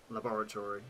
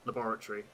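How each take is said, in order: First: LABORATORY stressed on BOR, full TORY ending; unsure pronunciation trial. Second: LABORATORY stressed on BOR, shortened ending; normal British pronunciation. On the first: Streamer who lost the word tests it, tentative pronunciation. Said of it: "I don't know how to pronounce it". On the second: Streamer finding their normal version, trial pronunciation. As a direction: say LABORATORY as luh-BOR-a-tree. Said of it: "how I would normally pronounce it". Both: Shown as a demonstration.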